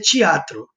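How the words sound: It is said with a Rio de Janeiro accent. "o carioca pronuncia teatro"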